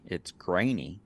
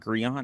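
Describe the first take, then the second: First: The first vowel sounds like 'ay'. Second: The first vowel sounds like 'ee'. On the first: The speaker calls it right. "pronouncing the A, not the E" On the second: The speaker calls it wrong. "so not Griani"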